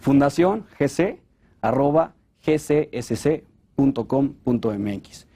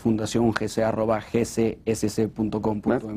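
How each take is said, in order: First: The address is said more slowly. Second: The address is said at normal, quick speed.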